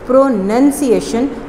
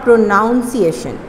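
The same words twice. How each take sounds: First: The second syllable sounds like 'nun'. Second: The second syllable sounds like 'noun'. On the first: The speaker calls it right. "This word is प्रोनाउंसिएशन" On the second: The speaker calls it wrong. "Not प्रोनाउंसिएशन"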